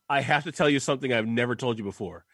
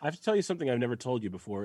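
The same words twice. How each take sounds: First: The words are read with heavy emphasis. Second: The words are read in a flat, neutral way. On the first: The speaker calls it wrong. "I read it with too much emphasis" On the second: The speaker calls it right. "I feel like I read it with the right tone there"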